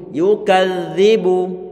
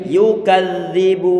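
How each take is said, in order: First: The middle consonant is a 'th' sound. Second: The same.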